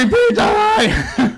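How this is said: It is said forcefully, like an exclamation.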